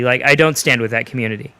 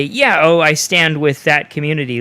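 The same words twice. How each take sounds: First: Said in the usual way. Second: Slightly lifted voice, mimicking a supporter; lightly mock a show of agreement; hypothetical supporter. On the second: Podcaster imagining himself backing that community, mock supportive. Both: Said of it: "it's hard to say".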